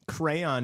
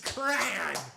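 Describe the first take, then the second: First: It is said the common Eastern and Southern way. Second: It is said the way some Midwesterners say it.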